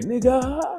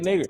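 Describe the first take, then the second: First: The word ends with an open ah sound. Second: The word ends with a hard r sound. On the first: This is the in-group form. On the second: This is how outsiders say it.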